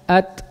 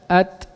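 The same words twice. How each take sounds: No difference in how they are said.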